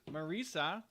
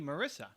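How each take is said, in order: First: The middle syllable rhymes with 'Lisa'. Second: The middle syllable sounds like 'miss'. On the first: The speaker calls it right. "it's like the Mona Lisa" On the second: The speaker calls it wrong. "everybody calls her Marissa"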